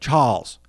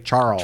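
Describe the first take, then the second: First: It is said in a British accent. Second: It is said outside a British accent. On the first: The reporter keeps his natural accent. The speaker calls it right. "say a Brit is reporting on Charles Purcell ... and he would say" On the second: The reporter steps out of his natural accent. The speaker calls it wrong. "suddenly say Charles"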